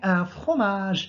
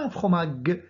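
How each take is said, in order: First: The g sounds soft, like the s in measure. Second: The g sounds hard, like the g in go. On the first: The speaker calls it right. "Nous avons prononcé G parce qu'il est suivi, la lettre G est suivie de E" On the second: The speaker calls it wrong. "et non pas"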